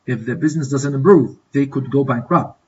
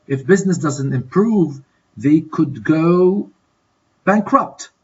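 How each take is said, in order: First: Said in the usual way. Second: Slow fill-in-the-blank reading. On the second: Shown as a demonstration. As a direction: stretch the lead-up and leave a gap before the answer. Teacher fills in exercise blank.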